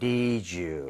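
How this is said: The voice falls at the end.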